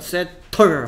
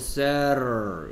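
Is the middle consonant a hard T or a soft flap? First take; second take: hard T; soft flap. First: The middle consonant is a hard T. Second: The middle consonant is a soft flap. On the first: "세털 하면 힘들기 때문에" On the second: "쉽게 힘을 빼고 세럴 이렇게 발음하는 거야"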